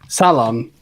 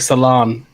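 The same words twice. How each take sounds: First: Salon is said in a British way. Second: Salon is said in an American way. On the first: "he keeps saying salon" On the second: "in America, they say salon"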